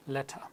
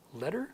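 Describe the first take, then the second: First: Letter with a crisp T and no final R; British clear T. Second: Letter with a D-like T and final R; American flap T. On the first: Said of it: "British accent with the T". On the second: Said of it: "an American accent". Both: Shown as a demonstration.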